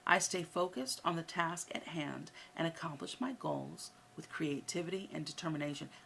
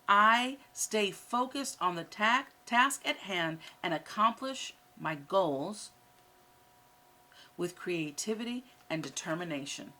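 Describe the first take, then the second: First: It is said at a normal speed. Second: It is said a little more slowly.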